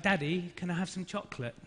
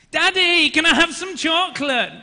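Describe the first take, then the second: First: Said in the usual way. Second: Put-on high, loud toddler whine; demanding small child. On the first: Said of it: "my daughter keeps asking me for". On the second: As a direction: imitate a little daughter loudly demanding a treat. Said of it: "she's used different tactics".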